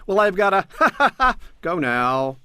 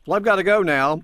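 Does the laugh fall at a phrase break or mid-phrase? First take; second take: mid-phrase; phrase break. First: The laugh interrupts the middle of the phrase. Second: The laugh falls in the gap between phrases. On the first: The speaker calls it wrong. "You don't say, ... You don't do that" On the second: The speaker calls it right. "you'll say"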